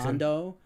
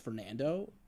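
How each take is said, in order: First: The name is said with a Spanish accent. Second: The name is said with an English accent. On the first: Someone else went out of their way to say it this way. The speaker calls it wrong. "To say it in an accent" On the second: This is how the speaker introduces himself. The speaker calls it right. "I introduced myself as Fernando"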